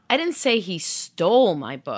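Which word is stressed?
stole. The stress is on "stole".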